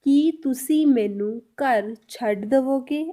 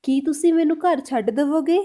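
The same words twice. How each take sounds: First: Slow it right down so each word is clear; धीरे-धीरे, हर शब्द अलग. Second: Said in the usual way. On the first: Shown as a demonstration. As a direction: spell out every word of the Punjabi slowly. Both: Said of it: "तो इसको हम पंजाबी में कैसे बोलेंगे?".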